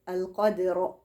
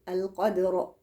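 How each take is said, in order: The two takes are said the same way.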